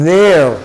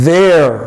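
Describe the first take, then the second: The two takes are said the same way.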